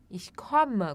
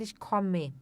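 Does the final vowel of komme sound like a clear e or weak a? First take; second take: weak a; clear e. First: The final vowel is weak, like a short a. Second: The final vowel is a clear, stressed e. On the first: This is how most speakers say it. "não é um e enfatizado... como se fosse um, a- um a, assim, no final" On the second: This is how some regions say it. "Em alguns lugares, o pessoal pode dizer ich komme"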